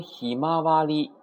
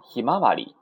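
First: ひまわり held high and level; alternative pitch accent. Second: Said in the usual way. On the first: Shown as a demonstration. Teacher shows how some people read it, ひまわり high and level. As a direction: keep ひまわり up on a high, even tone. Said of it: "有人读成". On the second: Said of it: "也可以啊".

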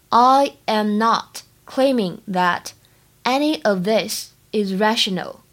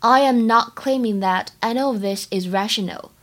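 First: Slowed right down, word by word; slow model sentence for students; slow teaching read. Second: Said in the usual way. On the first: Shown as a demonstration. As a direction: spell it out slowly for learners. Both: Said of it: "整句话的发音技巧呢".

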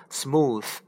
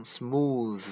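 First: Smooth with a voiceless th; wrong take: smooth said with voiceless th. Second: Smooth with a buzzing voiced th; right take: smooth with voiced th. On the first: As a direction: breathe the th out with no voice in smooth. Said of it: "把这个T H发成清辅音，不能发成". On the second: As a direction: let the th in smooth vibrate. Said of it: "应该发成". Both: Shown as a demonstration.

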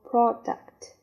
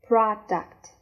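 First: "product" with a rounded "o", like prod-uct; "product" with a short, rounded "o" in the first syllable; second pronunciation. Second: "Product" with an open "rah" vowel, like prah-duct; "Product" with a wide, unrounded "ah" in the first syllable; first pronunciation. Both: Shown as a demonstration. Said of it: "第二种读法，product。".

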